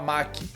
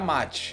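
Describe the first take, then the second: First: The middle consonant is a k sound. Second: The middle consonant is a ch sound. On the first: The speaker calls it wrong. "tem muita gente que fala Maki" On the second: The speaker calls it right. "É assim que se escreve e é assim que se pronuncia"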